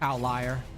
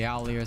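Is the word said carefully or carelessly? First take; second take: carefully; carelessly. First: The word is said carefully and clearly. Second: The word is said carelessly and slurred. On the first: The speaker calls it right. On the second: The speaker calls it wrong.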